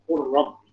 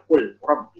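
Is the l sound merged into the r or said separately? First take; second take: merged; separate. First: The l merges directly into the r. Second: The l is pronounced separately before the r. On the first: The speaker calls it right. "langsung masuk ke huruf roh" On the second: The speaker calls it wrong. "jangan kul rob"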